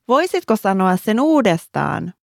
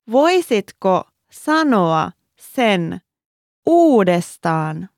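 First: The sentence is said at normal conversational speed. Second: The sentence is said slowly and deliberately. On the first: "And one more time at regular speed"

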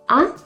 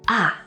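First: The pitch rises on the syllable. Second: The pitch falls on the syllable. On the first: The speaker asks someone to repeat what they said. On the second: The speaker has finally figured something out.

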